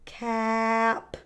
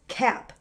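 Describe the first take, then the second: First: The word is stretched out slowly. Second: The word is said quickly.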